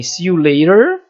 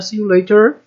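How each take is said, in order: First: "see you later" ending on a clear American R; American "later" with the R sounded. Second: "See you later" with "later" ending in an open vowel, no R; non-rhotic British "later", a bit higher. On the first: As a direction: roll into the R at the end of "later". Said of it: "Falar com som de R aqui vai ser americana". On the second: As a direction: drop the R of "later", British style. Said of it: "britânico". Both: Shown as a demonstration.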